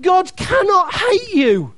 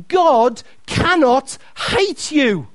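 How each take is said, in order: First: Preacher's shout. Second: Slow, deliberate preacher emphasis; slow and weighty. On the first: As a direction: hit hate with full force. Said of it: "Hear that prophetically". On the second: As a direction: lay each word down slowly. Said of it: "Please hear this". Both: Shown as a demonstration.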